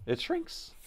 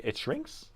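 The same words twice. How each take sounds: First: Much higher, disbelieving question; incredulous squeak. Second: Said in the usual way. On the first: Real, not acted. Streamer repeats chat's ram shrinkage claim, incredulous high squeak. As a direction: squeak it out like you can't believe it.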